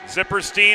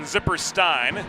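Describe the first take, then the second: First: The name ends with a 'steen' sound. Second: The name ends with a 'stine' sound. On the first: The speaker calls it wrong. "as opposed to the Een" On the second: The speaker calls it right. "She holds the Ein pronunciation"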